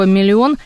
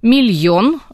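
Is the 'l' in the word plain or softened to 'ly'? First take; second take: plain; soft. First: The l sound is plain, with no y-glide. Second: The l is softened with a y-glide. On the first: This is the standard form. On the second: This is an allowed colloquial variant.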